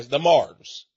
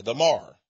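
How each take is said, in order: First: Mars said with a clear z at the end; "the Mars" ending in a buzzing z; local pronunciation. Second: Mar read without the final s; "the Mar" as in the spelling M A R R, no s at the end; spelled-out name. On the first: Telling how the family says it, Mars with a z. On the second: Reading the clan's spelling to the listener, Mar with no s. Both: Shown as a demonstration. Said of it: "But they pronounce it".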